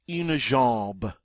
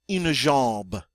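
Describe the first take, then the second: No difference in how they are said.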